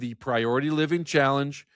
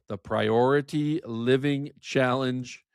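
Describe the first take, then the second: First: The phrase is said quickly. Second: The phrase is said more slowly. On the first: The speaker calls it wrong. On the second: The speaker calls it right.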